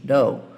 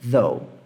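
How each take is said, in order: First: It starts with a d-like sound. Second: It starts with the tongue between the teeth. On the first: The speaker calls it wrong. "Se você não consegue pronunciar esse som ... fala though, assim" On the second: The speaker calls it right. "Mas é though"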